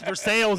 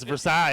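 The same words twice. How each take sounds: First: The word ends with a 'sails' sound. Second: The word ends with a 'sigh' sound. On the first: This is the local Kentucky place name. "It's Versailles in Kentucky" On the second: This is the French palace name. "It's Versailles in Paris"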